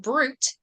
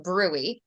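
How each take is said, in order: First: "brute" said as it is spelled, BROOT; spelling pronunciation. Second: "bruit" said BROO-ee, silent T; correct pronunciation. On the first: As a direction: say "brute" with the final T sounded. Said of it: "It's spelled brute". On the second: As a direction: say "bruit" as two syllables, BROO-ee. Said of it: "it's actually pronounced bruit". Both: Shown as a demonstration.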